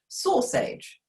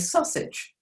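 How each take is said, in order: First: The first vowel is a full 'or' sound. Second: The first vowel is short, as normally spoken. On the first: It is read sound by sound from the letters. "If you were blending this, you would go s or age" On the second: It is the everyday modern pronunciation. "we now say sausage"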